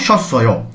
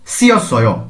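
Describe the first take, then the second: First: The first syllables are merged into one sound. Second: The first syllables are said separately, not merged. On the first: "কিন্তু এটার নেতিভ উচ্চারণ কেমন হয়?" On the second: "এর উচ্চারণ কেমন হচ্ছে?"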